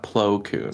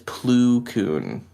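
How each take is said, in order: First: The first word's vowel sounds like 'oh'. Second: The first word's vowel sounds like 'oo'. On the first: The speaker calls it right. "not Plo Koon" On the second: The speaker calls it wrong. "I read it as ... I can't stop calling him Plu instead of Plo"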